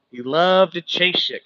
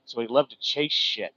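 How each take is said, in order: First: Louder and slower, leaning on loved; loud repeat. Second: Said in the usual way. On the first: Shown as a demonstration. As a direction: repeat it so the back of the room hears. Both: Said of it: "Can y'all still hear me?".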